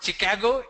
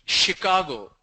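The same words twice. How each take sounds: First: Chicago with hard "ch", rising; Chicago with ch as in chip; wrong Chicago. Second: Chicago starting "sh"; standard Chicago. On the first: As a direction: say Chicago as "chi-KAH-go". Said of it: "It's not Chicago". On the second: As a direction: say Chicago as "shi-KAH-go". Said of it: "it's Chicago". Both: Shown as a demonstration.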